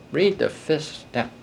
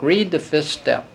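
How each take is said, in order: First: Softer slow repeat of "Read the fifth step"; quiet echo. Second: Said in the usual way. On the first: Real, not acted. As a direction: let the repeat fall away quietly.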